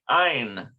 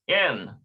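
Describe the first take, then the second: First: The vowel sounds like 'eye'. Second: The vowel sounds like 'ay'. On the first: "to some places it had a patach under there, which is a bar. So it's like ein" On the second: "but it's n, n in this case"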